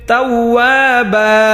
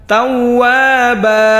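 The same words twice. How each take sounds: The two takes are said the same way.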